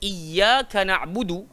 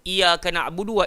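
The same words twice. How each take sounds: First: The 'y' sound is pressed and held double. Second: The 'y' sound is short and not pressed. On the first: The speaker calls it right. "Atas ya tu dah memang jelas ada sabdu" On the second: The speaker calls it wrong. "ada yang tak tekan menyebut"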